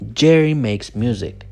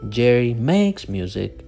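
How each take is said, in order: First: The stress falls on 'Jerry' and 'music'. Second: The stress falls on the verb 'makes'. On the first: The speaker calls it right. "No, Jerry makes music. So the stress goes on the nouns" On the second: The speaker calls it wrong. "You don't say Jerry makes music"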